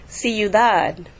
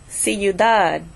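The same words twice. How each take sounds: The two takes are said the same way.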